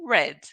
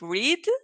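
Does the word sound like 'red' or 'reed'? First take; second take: red; reed. First: The vowel is short, like 'red'. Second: The vowel is long, like 'reed'. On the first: It is the past participle form. "past participle" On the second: It is the base form of the verb.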